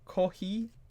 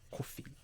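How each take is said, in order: First: It is said with a Japanese accent. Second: It is said with a plain, neutral accent.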